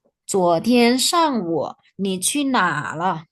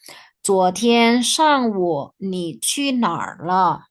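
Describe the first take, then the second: First: Measured reading, "哪" on an open "a", no R; R left out. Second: Slow reading, "哪儿" with curled R ending; slowly, sounding the "er" in "哪儿"; R pronounced. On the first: Teacher showing R is optional, "哪" without R. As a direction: say "哪" as a long open "na". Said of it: "ini juga bisa tidak dibaca". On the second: Teacher reading for students to imitate, "哪儿" with R. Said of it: "Kalau R-nya tidak dibaca". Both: Shown as a demonstration.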